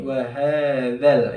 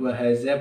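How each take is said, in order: First: The middle consonant is a soft 'th' sound. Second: The middle consonant is a buzzing 'z' sound. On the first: The speaker calls it right. "tapi wahadzal ya. Huruf dzal ya" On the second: The speaker calls it wrong. "Bukan wahaza, bukan"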